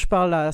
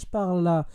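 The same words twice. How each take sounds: First: The voice is picked up fully and sounds louder. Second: The voice is picked up less and sounds quieter. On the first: "ça va" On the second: "là un peu moins"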